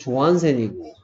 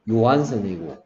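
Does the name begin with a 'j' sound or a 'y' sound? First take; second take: j; y. First: The name begins with a 'j' sound. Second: The name begins with a 'y' sound. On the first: This is the English or American reading. "영국 미국식으로 읽으면" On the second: This is the Dutch reading. "더치식으로 읽으면"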